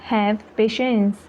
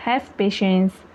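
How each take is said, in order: First: Slow, careful Have patience; slow repeat. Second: Said in the usual way. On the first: Shown as a demonstration. Teacher repeating Have patience for learners, slowly. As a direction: spell it out slowly for beginners. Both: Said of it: "teacher repeats sentence slower".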